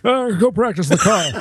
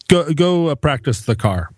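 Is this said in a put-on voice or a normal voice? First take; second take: put-on voice; normal voice. First: It is said in a put-on imitating voice. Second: It is said in the speaker's normal voice.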